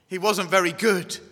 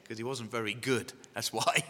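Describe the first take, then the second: First: Firm emphasis on "very good", in a raised voice; mock-insistent repeat. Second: Quiet, low throwaway admission; low aside. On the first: Preacher answering laughter about being picked last, insistent "very good". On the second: Preacher confessing he was picked last, low aside. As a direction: drop it softly as an aside. Joking aside about himself, then repeated. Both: Real, not acted.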